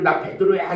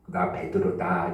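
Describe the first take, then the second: First: It is said in a loud voice. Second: It is said in a quiet voice.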